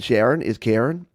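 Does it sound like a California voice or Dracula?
California. It is said in a California valley voice.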